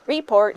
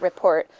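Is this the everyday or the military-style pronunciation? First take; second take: military; everyday. First: It is said in the odd military-style way. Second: It is said in the ordinary everyday way. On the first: This is how it is said in the military. "Notice how they always say things funny, too" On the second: This is how people normally say it. "not report"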